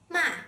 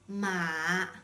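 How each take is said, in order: First: The pitch falls sharply from high. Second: The pitch stays very low. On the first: It means to scold or curse. "with a sharply falling tone" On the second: It means horse. "with a low tone"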